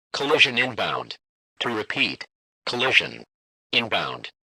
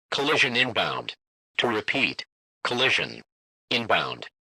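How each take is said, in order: Both takes have the same delivery.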